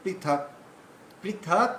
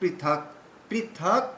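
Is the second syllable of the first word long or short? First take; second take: long; long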